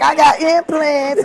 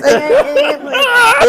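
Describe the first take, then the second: First: Drawn out, a touch higher insistence; slow defensive protest. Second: Much higher, very slow, fake-crying whine; whiny wailing protest. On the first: Retold or imitated. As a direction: insist slowly, half joking. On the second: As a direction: wail it like a kid about to cry. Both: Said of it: "I'm like".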